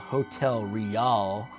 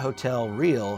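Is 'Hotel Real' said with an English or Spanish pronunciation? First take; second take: Spanish; English. First: It is said with a Spanish pronunciation. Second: It is said with an English pronunciation. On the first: The speaker calls it right. "Spanish pr- pronunciation" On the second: The speaker calls it wrong. "it's not"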